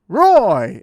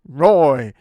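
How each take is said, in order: First: The name is said in a higher pitch. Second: The name is said in a lower pitch. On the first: The character is a good hero. "it's exciting, good Roy" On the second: The character is a bad delinquent. "like a slightly lower one"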